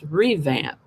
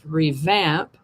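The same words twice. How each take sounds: First: It is said with the noun's stress pattern. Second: It is said with the verb's stress pattern. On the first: It names an instance of renovation. "for a noun, it's pronounced revamp" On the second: It names the action of renovating. "As a verb, is pronounced revamp"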